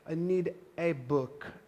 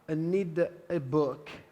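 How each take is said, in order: First: The article is a full 'ay', said slowly. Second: The article is a full 'ay', said slowly.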